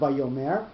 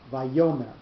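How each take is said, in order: First: The stress falls on a syllable other than the middle. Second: The stress falls on the middle syllable. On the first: The speaker calls it wrong. "it's not vayomer" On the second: The speaker calls it right. "it's vayomer. So the yo, that cell, that syllable is the one that's going to have the accent"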